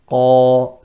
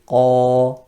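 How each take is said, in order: The two takes are said the same way.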